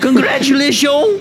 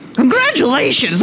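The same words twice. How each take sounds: First: It is said with a strong French accent. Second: It is said with only a slight French accent. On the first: The speaker calls it right. "Can you do a French accent?" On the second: The speaker calls it wrong. "You gotta add a little bit more French to it"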